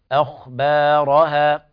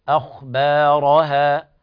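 Both takes have the same delivery.

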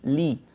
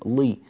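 First: The L is pronounced thin and light. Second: The L is pronounced thick and heavy. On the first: The speaker calls it right. "رققها تمام الترقيق" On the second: The speaker calls it wrong. "اللام فيها تفخيم، لا نريد هذا التفخيم"

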